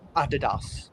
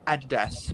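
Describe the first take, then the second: First: The brand name is said the European way. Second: The brand name is said the Australian way. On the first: "I prefer Adidas, like what the Europeans would say" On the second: "like a lot of the Australians say like Adidas. / Yeah, Adidas"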